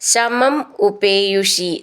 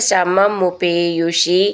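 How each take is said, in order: First: The two words are said separately. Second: The two words are joined into one.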